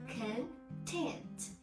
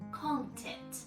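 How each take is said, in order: First: The stress is on the second syllable. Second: The stress is on the first syllable. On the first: It is used as an adjective. "we stress on the second syllable as an adjective" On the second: It is used as a noun. "The stress is on the content, first syllable"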